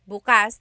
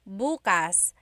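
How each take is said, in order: First: The stress is on the second syllable. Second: The stress is on the first syllable.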